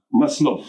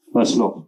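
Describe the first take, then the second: First: Maslov said without the final f, as maslo; first try at the name. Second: Maslov with a clear final f, as maslof; corrected name. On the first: Presenter introducing the officier to the audience, Maslov without final f. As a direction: Maslov with a silent ending, no f sounded. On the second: Presenter correcting himself to the audience, Maslov with a clear final f. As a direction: say Maslov again, now sounding the f at the end. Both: Real, not acted. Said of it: "voilà".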